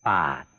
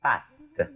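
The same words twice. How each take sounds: First: « Patte » avec un a sombre, placé au fond de la bouche; a postérieur. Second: « Patte » avec un a clair, placé à l'avant de la bouche; a antérieur. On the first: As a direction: dites « Patte » avec le a postérieur, grave et profond. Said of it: "Postérieur". (prononciation de « Patte » avec le a postérieur) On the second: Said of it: "Antérieur". (prononciation de « Patte » avec le a antérieur) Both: Shown as a demonstration.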